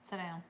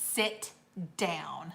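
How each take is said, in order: First: It is said in a relaxed, ordinary way. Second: It is said sharply, with a snap. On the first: It is a normal invitation to sit. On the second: The listener is in trouble.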